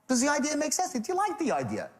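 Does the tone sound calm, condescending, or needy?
needy. It is asked in an anxious, needy tone.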